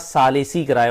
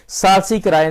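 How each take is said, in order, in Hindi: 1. 'l' और 's' के बीच एक छोटा 'i' स्वर सुनाई देता है। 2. 'l' और 's' के बीच कोई स्वर नहीं है। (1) "सालिसी किराए होता है, सालिस से सालिसी" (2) "सालसी किराए नहीं होता"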